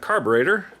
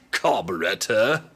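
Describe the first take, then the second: First: It is said with an American pronunciation. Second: It is said with a British pronunciation.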